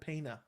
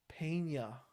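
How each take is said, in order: First: The middle consonant is a plain n. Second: The middle consonant is an ny sound. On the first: The speaker calls it wrong. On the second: The speaker calls it right.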